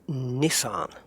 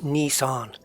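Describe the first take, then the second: First: It is said with a non-American pronunciation. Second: It is said with an American pronunciation. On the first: The speaker calls it right. "It's Nissan" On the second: The speaker calls it wrong. "if you're American, it's not Nissan"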